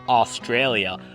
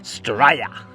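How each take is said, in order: First: The word is said in full, all syllables. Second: The word is clipped to two short syllables. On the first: The speaker calls it wrong. "We don't say Australia" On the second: The speaker calls it right. "we say straya"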